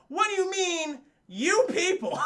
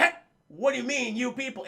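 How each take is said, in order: First: High, loud mock outrage; hammed-up indignant challenge; Brandon T. Jackson outraged. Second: Mildly raised challenge; imitating an affronted actor; acted indignant retort. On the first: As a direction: blow up the offense, pitched way up. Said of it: "When Brandon T. Jackson goes". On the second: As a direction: challenge it in character, a notch up. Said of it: "And he's like".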